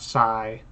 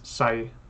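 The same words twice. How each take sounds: First: The vowel is held long. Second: The vowel is kept short. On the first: The speaker calls it wrong. "It's not Sai" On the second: The speaker calls it right. "so it is short. ... it's Sai"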